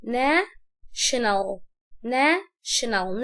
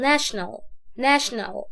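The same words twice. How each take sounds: First: National very slowly as "na", pause, "shenal"; split in two. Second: Said in the usual way. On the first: Shown as a demonstration. Teacher dividing a big word for learners, national in two pieces. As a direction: lift "na" in national, pause, then drop on "shenal". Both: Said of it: "الكلمة لما تبقى كبيرة عليا اقسمها".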